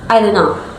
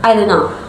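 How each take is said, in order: First: The T in don't is dropped. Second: The same.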